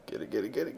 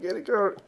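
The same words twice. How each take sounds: First: Said in the usual way. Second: Higher, louder chant of get it; rising urging. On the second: Real, not acted. Gamer urging units through the maze, higher excited chant. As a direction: push the pitch up as hope grows.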